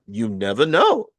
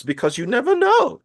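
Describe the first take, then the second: First: Said in the usual way. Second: Because you never KNOW, pitched much higher and louder on know; emphatic warning. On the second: Real, not acted. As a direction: hammer home "never know" with a raised voice. Warning about home studio levels.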